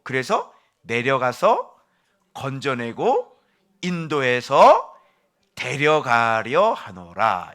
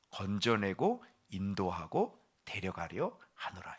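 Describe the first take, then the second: First: Each verb slow and loud, hammered home; 내려가서 건져내고 인도해서 데려가려 하노라 proclaimed slowly and loudly, every verb stressed; emphatic, drawn out. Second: Soft summary. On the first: Preacher proclaiming God's verbs, slow and loud. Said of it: "여기에서 동사들이 나오죠". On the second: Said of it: "이걸 정리해 보니까". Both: Shown as a demonstration.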